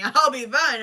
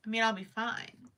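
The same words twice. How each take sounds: First: Laughing. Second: Said in the usual way. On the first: Real, not acted. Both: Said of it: "Trust me".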